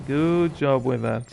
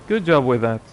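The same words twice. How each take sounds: First: Sarcastic. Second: Said in the usual way. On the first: Acted. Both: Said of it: "he says sarcastically".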